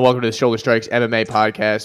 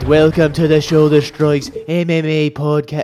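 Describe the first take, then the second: First: It is said in his normal accent. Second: It is said in a put-on Irish accent.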